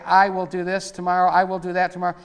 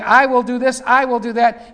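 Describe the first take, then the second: First: Said in the usual way. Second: Louder proud I will do this, I will do that; Lucifer's boast. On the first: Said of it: "We're supposed to not say". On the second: Retold or imitated. Preacher voicing Lucifer's boast, louder and proud. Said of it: "here you've got Lucifer saying".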